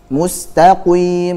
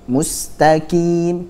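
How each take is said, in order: First: The q is very heavy, with rounded lips. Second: The q is thin, sounding like k. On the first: "contohnya begitu, salah" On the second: "nah itu huruf kaf"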